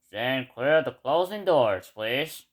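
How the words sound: The announcement sounds muffled and low in quality. "sounds low quality"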